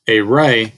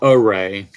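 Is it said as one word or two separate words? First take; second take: two words; one word. First: It is said as two separate words. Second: It is said as one joined word. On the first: It names a part of a line with one endpoint. The speaker calls it right. "We're saying two separate words" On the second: It names a grid arrangement used in multiplication. The speaker calls it wrong. "not array"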